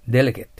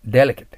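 Both takes have the same delivery.

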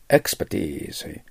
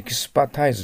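First: The stress falls on the first syllable. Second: The stress falls on the last syllable. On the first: The speaker calls it right. "頭にアクセントがある" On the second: The speaker calls it wrong. "エキスパタイズじゃないんですよね"

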